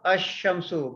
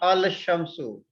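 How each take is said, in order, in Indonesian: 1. L tidak dibaca dan sh dibaca dobel. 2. L dibaca sebelum sh. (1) "Diucapkan asyamsu" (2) "bukan al-syamsu"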